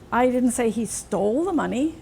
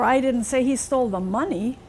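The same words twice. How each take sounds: First: The word 'stole' carries the main stress. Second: The word 'money' carries the main stress. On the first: He may have only borrowed it. "Maybe he just borrowed it" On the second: He took something other than money.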